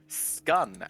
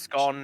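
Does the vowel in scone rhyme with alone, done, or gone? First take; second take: done; gone. First: The vowel rhymes with the one in done. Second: The vowel rhymes with the one in gone. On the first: "scun as in done" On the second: "scone as in gone"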